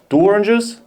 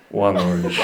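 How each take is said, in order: First: Rising, higher questioning hitman; hitman asking. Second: Hitman confirming. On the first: Hitman confirming his target, louder questioning tone. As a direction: check the order like a hitman. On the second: Hitman settling on one target, low grim reply. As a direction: say it low like a contract killer. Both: Pretend. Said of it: "a hitman who was ordered".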